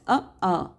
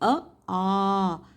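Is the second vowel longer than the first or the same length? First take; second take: same length; longer. First: Both vowels are held for the same length. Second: The second vowel is held longer than the first. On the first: The speaker calls it wrong. "They read it just as a, a. So there is no difference" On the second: The speaker calls it right. "Instead of pronouncing it as"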